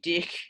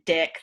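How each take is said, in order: First: It is said with a New Zealand accent. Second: It is said without a New Zealand accent.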